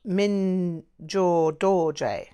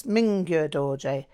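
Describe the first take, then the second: First: "Mingyur Dorje" said very slowly as "Min-jor Dor-jay"; hesitant mispronunciation. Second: "Mingyur Dorje" said as "Ming-gyur Dor-jay"; alternative Tibetan pronunciation. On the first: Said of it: "my pronunciation is terrible". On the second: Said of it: "they pronounce Tibetan closer to the written form". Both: Acted.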